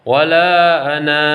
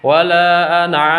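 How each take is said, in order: First: The final vowel of ana is drawn out long. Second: The final vowel of ana is kept short. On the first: The reading stops after this word. "kalau diwakofkan" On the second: The reading continues into the next word. "mesti dibaca pendek kalau diwasolkan"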